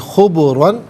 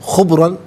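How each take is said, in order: First: The b sound echoes with a bouncing release. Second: The b sound is flat without an echo. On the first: The speaker calls it right. "बल्कि खुबरन" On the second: The speaker calls it wrong. "इसे खुबरन नहीं"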